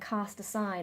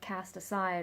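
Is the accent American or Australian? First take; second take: Australian; American. First: It is said in an Australian accent. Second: It is said in an American accent. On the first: The speaker calls it right. "I used a more Australian accent when saying" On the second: The speaker calls it wrong. "that whole American thing"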